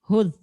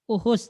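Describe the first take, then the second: First: The word starts directly with a consonant. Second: The word starts with an extra vowel sound. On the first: The speaker calls it right. "dibuang hamzah menjadi hudh" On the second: The speaker calls it wrong. "bukan uhus ya, bukan itu"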